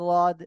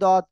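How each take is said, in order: First: The first sound is an l sound. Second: The first sound is a d sound. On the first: "কেউ বলে লদ" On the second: "কেউ বলে দদ"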